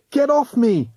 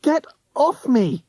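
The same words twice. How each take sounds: First: High struggling yell. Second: Very high shriek. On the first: Roddy fighting off the ghost hunter, high yell. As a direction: yell while wrestling free. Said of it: "Roddy yelled". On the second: Tessa fighting off De Sniff, high shriek. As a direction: shriek it while struggling. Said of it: "she shrieked". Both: A narrator's reading.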